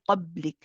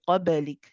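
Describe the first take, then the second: First: The b is stopped with no bounce. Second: The b is released with a short bounce. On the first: The speaker calls it wrong. "We don't say qablik" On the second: The speaker calls it right. "we do bounce it"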